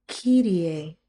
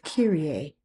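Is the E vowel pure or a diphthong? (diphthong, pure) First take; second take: pure; diphthong. First: The E vowel stays pure without gliding. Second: The E vowel glides into a diphthong. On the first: The speaker calls it right. "Let it just cut off" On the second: The speaker calls it wrong. "We don't want to add that diphthong"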